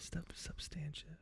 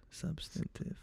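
First: Substantive whispered as sub-STAN-shiv; practising own pronunciation. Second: Substantive whispered as SUB-sten-tiv; practising corrected pronunciation. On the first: Host testing the word to himself, whispered sub-STAN-shiv. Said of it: "I pronounce it differently". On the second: Host testing the correction to himself, whispered SUB-sten-tiv. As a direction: whisper substantive with first-syllable stress and t. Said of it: "I think it's substantive". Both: Shown as a demonstration.

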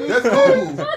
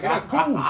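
First: High-pitched laughing squeal. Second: Laughing. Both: Real, not acted. Laughing at his own impression.

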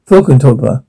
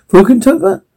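First: Said in the usual way. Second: Incredulous echo. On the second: Acted. Guests repeat the odd place name.

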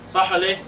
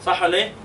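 Both takes have the same delivery.

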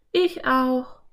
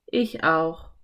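First: Put-on high-pitched girl character; Anne. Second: Said in the usual way. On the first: A narrator's reading. Anne agrees with exhausted Philipp, high character voice. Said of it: "meinte sie". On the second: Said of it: "gab Philipp zu".

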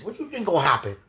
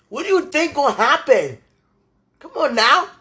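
First: Said in the usual way. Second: Loud, high, exasperated demand; real raised-voice frustration; exasperated outburst. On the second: Real, not acted. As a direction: throw the question out louder, fed up. Upset rhetorical question, repeated louder.

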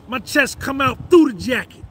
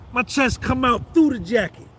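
Both takes have the same delivery.

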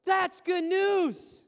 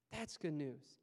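First: Loud, slow, ringing proclamation; exultant shout. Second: Low, softer repeat; soft echo. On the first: Pastor rejoicing that God doesn't condemn, loud and slow. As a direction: throw the good news to the back row. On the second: Pastor quietly repeating the good news, softer. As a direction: let it land gently. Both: Acted.

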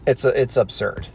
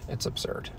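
First: Said in the usual way. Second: Voiceless whisper; whispered aside. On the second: Acted. Mocking the moon landing, whispered. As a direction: breathe it out as a secret aside.

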